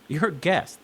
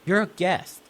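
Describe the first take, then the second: No difference in how they are said.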